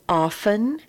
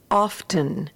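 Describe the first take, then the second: First: The t sound is silent. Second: The t sound is pronounced. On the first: This is the usual pronunciation. "the words have the f sound with the t silent" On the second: This is heard in some parts of the country. "they do acknowledge the T sound in that word"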